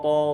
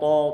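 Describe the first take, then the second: No difference in how they are said.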